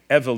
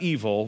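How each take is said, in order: First: It is pronounced unlike the English word evil. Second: It is pronounced like the English word evil. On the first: It is part of a name meaning son of. The speaker calls it right. "Evil, not evil" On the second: It means wicked. The speaker calls it wrong. "not evil, don't think of it as evil"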